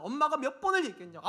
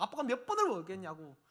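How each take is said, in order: First: Raised, louder scolding mother; mock nagging mom. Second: Said in the usual way. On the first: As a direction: nag like an exasperated mom. Parent nagging child, mock scolding. (잔소리하는 엄마 흉내, 높고 큰 목소리)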